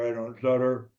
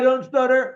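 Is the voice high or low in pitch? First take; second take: low; high. First: It is said at a low pitch. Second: It is said at a high pitch. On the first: "Down here" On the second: "When I'm up here"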